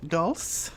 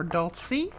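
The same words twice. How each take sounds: First: Dulce as one syllable, "dulss"; unsure pronunciation. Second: Dulce as two syllables, "dult-see"; alternative pronunciation. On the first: Guessing at a collection name for viewers, Dulce said as "dulss". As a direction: say Dulce with a silent final E, questioning. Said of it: "I may pronounce this wrong". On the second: Offering viewers another guess at the name, Dulce said as "dult-see". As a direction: end Dulce on a rising "see", questioning. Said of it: "I'm not sure". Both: Shown as a demonstration.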